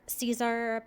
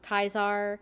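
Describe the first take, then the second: First: The word begins with an S sound. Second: The word begins with a K sound.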